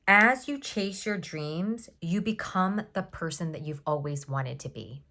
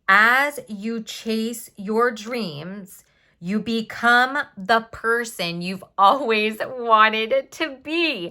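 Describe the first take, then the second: First: It is said at normal volume. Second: It is said more loudly.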